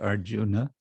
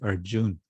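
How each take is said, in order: First: The name ends with a final vowel sound. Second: The name ends on a consonant, without a final vowel. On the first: It follows the classical Sanskrit pronunciation. "if you want to be more like Sanskrit pronunciation" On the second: It follows the modern Hindi pronunciation. "want to be more like modern Hindi"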